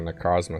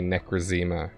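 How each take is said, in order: First: The z runs straight into the m. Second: An extra vowel sits between z and m. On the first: "Is that how you say its name?" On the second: "I used to say Necrozema, because I thought it sounded cooler"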